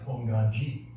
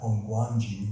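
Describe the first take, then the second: First: There is no w sound after hong. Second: A w sound is heard after hong. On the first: The speaker calls it right. "It's like Honganji" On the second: The speaker calls it wrong. "not Hongguanji. Remember, it's silent W"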